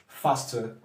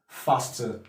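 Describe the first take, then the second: The two takes are said the same way.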